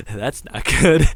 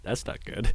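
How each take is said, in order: First: Louder, slow "That's not good." with a laugh; nervous laugh. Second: Soft "That's not good." under the breath; quiet dread. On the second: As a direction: murmur "That's not good." barely voiced. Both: Acted.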